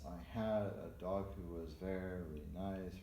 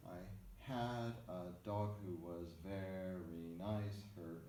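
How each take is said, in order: First: Slow, measured recitation of "I had a dog who was very nice" with varied note lengths; varied triple rhythm. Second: Slow metrical recitation in threes, stretching "had" and "very"; simple triple rhythm. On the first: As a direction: sound out "had a dog" in triple meter, a touch more flowing. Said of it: "a little bit more variety in this". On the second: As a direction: recite "I had a dog who was very nice" slowly to a triple beat, a little softly. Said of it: "adapt that to a simple triple setting". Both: Shown as a demonstration.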